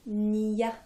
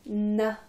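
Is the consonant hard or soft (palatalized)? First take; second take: soft; hard. First: The n is soft, palatalized with a y-glide. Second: The n is hard, not palatalized. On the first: "c'est mou" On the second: "c'est dur"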